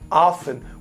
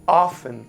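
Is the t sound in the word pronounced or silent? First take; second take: silent; silent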